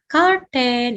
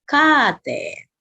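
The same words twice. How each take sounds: First: It is said with English sounds. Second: It is said with a long A, Japanese-style.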